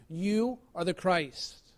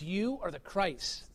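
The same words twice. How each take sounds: First: Slow hushed confession. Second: Soft, slow and reverent; quiet slow confession. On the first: Peter's confession repeated. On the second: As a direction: let it land gently, almost hushed. Peter's confession quoted. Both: Retold or imitated.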